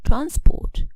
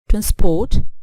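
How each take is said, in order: First: The stress is on the first syllable. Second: The stress is on the second syllable. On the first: It is used as a noun. "for nouns the stress falls on the first syllable" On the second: It is used as a verb. "for verbs we stress the second syllable"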